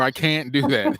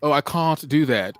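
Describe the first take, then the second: First: Said in the usual way. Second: "can't" with a broad ah vowel, cahnt; lightly British "I can't do that", cahnt. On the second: Shown as a demonstration. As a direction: slip into a British "can't" here. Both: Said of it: "I would know if I went".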